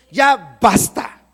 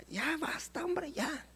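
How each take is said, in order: First: "Ya basta" slow and commanding, "ya" stressed; firm command. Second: "ya basta" murmured very softly, no authority; "ya basta" breathed out meekly like a timid request; weak request. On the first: Shown as a demonstration. Preacher models commanding the problem, slow firm "Ya basta". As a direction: order "Ya basta" with slow authority. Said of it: "el Señor viene a decirte, "Ya basta". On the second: Pretend. Preacher mocks a meek "ya basta" to the problem, murmured. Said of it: "¿cómo le habla a su problema?".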